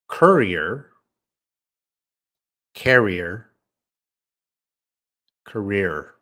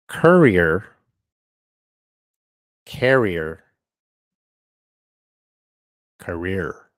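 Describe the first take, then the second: First: The voice sounds at a normal distance. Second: The voice sounds very close and soft.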